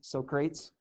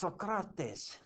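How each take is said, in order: First: The name is pronounced letter by letter, as spelled. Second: The name is pronounced in its standard way. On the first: Others mispronounce the name. The speaker calls it wrong. "they call uh, Socrates Socrates" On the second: The name's owner corrects the pronunciation. The speaker calls it right. "And he keeps saying, it's Socrates"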